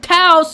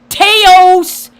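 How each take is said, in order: First: The vowel sounds like 'ow' in 'house'. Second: The vowel sounds like 'ay' in 'day'. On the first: The speaker calls it right. "it's pronounced Taos and the locals get mad" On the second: The speaker calls it wrong. "don't say Teos"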